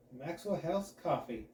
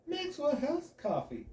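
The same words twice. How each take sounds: First: Velvety announcer read; super smooth. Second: High, slow, grinning brand name yell; overdone cheesy shout of the name; practically screaming. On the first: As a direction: glide through the brand name like silk. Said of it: "I say super smoothly". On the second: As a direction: belt the brand name with a huge smile. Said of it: "I practically scream the brand name". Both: Acted.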